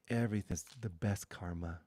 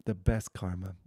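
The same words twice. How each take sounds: First: Said in the usual way. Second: The best karma said louder and weighted; loud emphatic echo of the phrase; emphatic repeat. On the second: Shown as a demonstration. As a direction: hit The best karma hard the second time.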